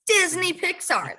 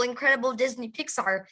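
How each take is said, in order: First: "Disney Pixar" repeated slower and higher, each word savoured; a proud, slowed-down "Disney Pixar" echoing the line before; stressed repeat. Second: Said in the usual way. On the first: Real, not acted. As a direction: say "Disney Pixar" again, drawn out and lifted with awe.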